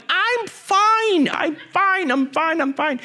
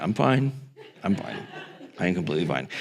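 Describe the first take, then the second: First: Frantic reassurance. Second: Much lower and softer, sinking away; quiet guilty mumble. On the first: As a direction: insist nervously until it fades. Kid reassuring nurse frantically. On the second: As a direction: say it small and ashamed. Kid answering mom guiltily. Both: Retold or imitated.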